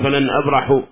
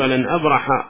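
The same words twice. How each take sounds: First: The verb ends with a 'u' vowel. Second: The verb ends with an 'a' vowel. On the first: The speaker calls it wrong. "لا تبقي على رفعه، ولا يصلح أن تقول فلن أبرح هذا لحن" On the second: The speaker calls it right. "وإنما تقول فلن أبرح لأنه دخل عليه ناصب"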